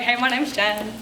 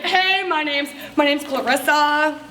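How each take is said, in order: First: Said in the usual way. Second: Lightly put-on, drawn-out self-introduction; showy introduction. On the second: Guest introducing herself at a party, mildly showy. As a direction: stretch the name out with a little flourish.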